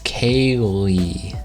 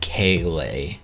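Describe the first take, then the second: First: The name ends with a 'lee' sound. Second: The name ends with a 'lay' sound.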